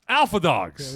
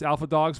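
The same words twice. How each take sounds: First: It is shouted loudly with great energy. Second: It is said plainly, without extra energy.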